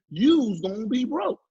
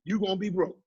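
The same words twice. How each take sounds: First: Slow "you's gonna be broke" with a drawn-out "you's"; street slang take. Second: Said in the usual way. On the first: Shown as a demonstration. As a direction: lean into the slang "you's", slowly. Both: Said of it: "Or as they gonna say".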